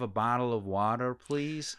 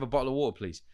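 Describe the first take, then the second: First: It is said in an American accent. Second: It is said in a British accent. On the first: It is adapted so local listeners understand. "say it properly for here" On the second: Local listeners may not understand it. "my authentic British South"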